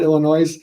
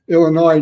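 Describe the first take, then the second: First: The final S is pronounced. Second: The final S is silent. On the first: The speaker calls it wrong. "not Illinois" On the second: The speaker calls it right. "You don't say the S"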